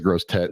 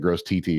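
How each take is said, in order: First: The second word is said as one syllable. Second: The second word is said as two letter names. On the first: The speaker calls it right. "He said, it's gross tet" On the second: The speaker calls it wrong. "And I said, gross T T, and he started laughing"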